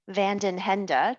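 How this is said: The name is said with a light American accent. This makes the name a little easier for Americans. "to try to Americanize it and make it a little easier"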